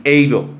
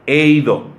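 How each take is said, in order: First: "eido" repeated as EI-do with a clear stress on the i; Greek word eido, stressed. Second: "eido" said EI-do, stress on the first syllable; Greek word eido. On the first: Preacher repeating the Greek word after naming its accent, stressing the i in "eido". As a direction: say "eido" again leaning on the i. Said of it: "con acento en la I". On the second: Preacher teaching the Greek word to his congregation, carefully sounding "eido" with the i stressed. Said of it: "una palabra griega que se pronuncia eido". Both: Shown as a demonstration.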